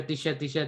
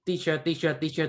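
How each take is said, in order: First: "teacher" repeated as "tee-sheh"; sliding into Burmese pronunciation. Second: Said in the usual way. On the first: Shown as a demonstration. Showing the reason by repetition, "teacher" slipping to "tee-sheh". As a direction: let "teacher" lose its r, ending on "eh". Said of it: "it turns to teacher, like, very quickly". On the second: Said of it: "it turns to teacher".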